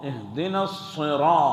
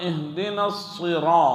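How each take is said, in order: Both takes have the same delivery.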